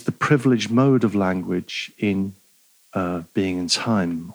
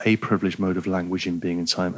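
First: Said in the usual way. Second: "a" stressed as a full "ay", then quick and low. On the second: Real, not acted. Lecturer correcting himself from "the" to "a", stress on "a" as "ay". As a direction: lean on "a" as "ay", rattle off the rest softly.

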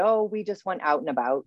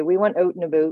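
First: Said in the usual way. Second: "out and about" with oo vowels, like "oot and aboot"; Atlantic Canadian accent. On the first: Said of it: "Like, instead of saying". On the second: Shown as a demonstration. Canadian quoting people from home, Atlantic Canadian accent. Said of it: "They would say".

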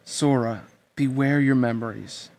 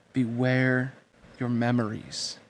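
First: A touch slow, giving each word weight; slow and weighty. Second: Slow and weighty. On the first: A narrator's reading. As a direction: lay some gravity on it. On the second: Acted. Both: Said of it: "She pronounced the words slowly, giving them weight".

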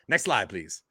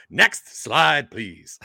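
First: Said in the usual way. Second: Calling the request again, louder; louder repeat. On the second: Acted. Presenter to the slide operator, repeating louder.

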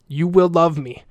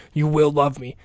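First: Firm, insistent demand, a little creepy. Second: Said in the usual way. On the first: Real, not acted. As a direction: state it as an order, not a wish. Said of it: "That sounded like a demand". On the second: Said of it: "That was a little creepy".

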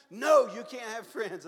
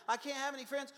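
First: Slow, much louder flat refusal; the teacher booms it down, slow and firm; stern loud no. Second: High, whiny student protest; a dismayed student pleading, pitched high; student raising his hand to protest, plaintive and high; high plaintive question. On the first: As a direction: Bible school teacher shutting down a student, loud and slow. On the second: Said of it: "So I'd raise my hand". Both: Retold or imitated.

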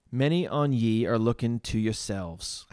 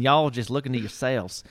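First: Attempted broad Essex accent. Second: Put-on Southern accent. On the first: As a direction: have a loose go at an Essex accent. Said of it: "in this broad Essex accent". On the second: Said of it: "It was almost Southern".

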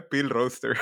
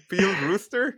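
First: "roster" said with a short o, peel roster; "Peel roster" said as written, roster with a short o; wrong English vowel. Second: "rooster" said with a long oo, ruster; correct English rooster. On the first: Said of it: "¿Qué no es rooster?". ("roster" pronunciado con o corta, como se escribe) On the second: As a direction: peel "rooster" with a long u sound. ("rooster" pronunciado con u larga, ruster) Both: Shown as a demonstration.

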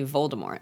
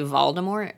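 First: "Voldemort" with a long O first vowel, lower; own pronunciation. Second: "Voldemort" with an open "ah" first vowel; imitated pronunciation. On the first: Shown as a demonstration. Friend showing own way of saying it, "Voldemort" as VOLE-de-mort. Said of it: "I say Voldemort". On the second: Friend showing what the sisters say, "Voldemort" as VAHL-de-mort. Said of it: "You and Becca both say".

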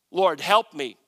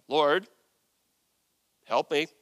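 First: Loud reading of a plea; emphatic plea. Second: Measured, insistent plea in separated pieces; firm demand. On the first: Acted. Woman kneeling before Jesus, emphatic plea. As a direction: call it out with a punch. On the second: Shown as a demonstration. Woman laying down the law to Jesus, firm. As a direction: lay it down firmly, pausing after Lord. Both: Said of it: "I wonder how firm I should be reading that".

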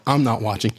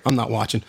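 Both takes have the same delivery.

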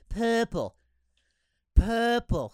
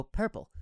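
First: 'Purple' with the R dropped, drawn out as PUH-pul; mimicked purple. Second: 'Purple' said with a full R, lightly quoted; his own purple. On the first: Host quoting her mockery of his word, R-less 'Purple'. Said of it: "She goes". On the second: Retold or imitated. Host retelling how he said it, R-coloured 'Purple'. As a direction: say 'Purple' with the R pronounced in PER. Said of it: "I go".

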